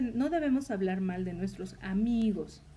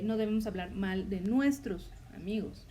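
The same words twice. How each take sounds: First: The word amigos carries the emphasis. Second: The word nuestros carries the emphasis. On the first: Speaking ill of female friends is allowed. "se puede malinterpretar en la última palabra" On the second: Speaking ill of enemies is allowed. "ahí el énfasis está en la palabra nuestros"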